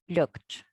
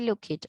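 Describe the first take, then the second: First: The ending is a short 't' in one syllable. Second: The ending is an extra syllable, like 'id'. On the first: The speaker calls it right. "We say looked" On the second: The speaker calls it wrong. "So we don't say look it"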